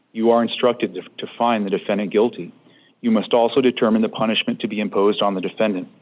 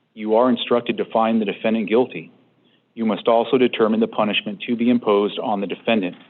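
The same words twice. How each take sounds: The two takes are said the same way.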